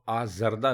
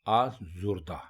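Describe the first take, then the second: First: The second vowel is 'a'. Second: The second vowel is 'u'. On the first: The speaker calls it wrong. "आजरदा नहीं" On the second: The speaker calls it right. "बल्कि आजुर्दा"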